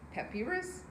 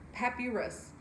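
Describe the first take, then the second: The two takes are said the same way.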